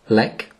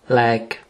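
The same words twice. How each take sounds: First: The vowel is short. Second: The vowel is long. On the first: It means fright. "Lek signifie effroi" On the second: It means medicine. "Lek signifie médicament"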